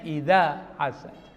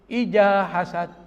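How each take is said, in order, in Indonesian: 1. Konsonan pada kata pertama adalah bunyi 'dh'. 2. Konsonan pada kata pertama adalah bunyi 'j'. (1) "Harusnya idza hasad" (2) "Saya pernah dengar ibu-ibu bacanya begitu"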